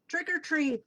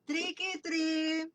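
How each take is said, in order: First: The word 'or' is said as its own word. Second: The word 'or' merges into 'tricky'. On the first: The speaker calls it right. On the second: The speaker calls it wrong.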